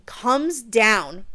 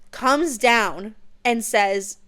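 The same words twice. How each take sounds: First: Said in the usual way. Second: Drawn out slowly for suspense; dramatic slow. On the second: Shown as a demonstration. Building suspense for viewers as the dragon lands, slow. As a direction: stretch each word to build tension. Dragon arrives, retold twice.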